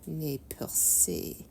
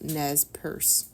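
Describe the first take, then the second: First: It is pronounced the French way, ending in 'say'. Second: It is pronounced the English way, like 'purse'.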